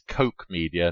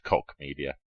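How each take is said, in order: First: The name rhymes with coke. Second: The name rhymes with lock. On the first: The speaker calls it right. "It's Coke Media" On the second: The speaker calls it wrong. "not Cock Media"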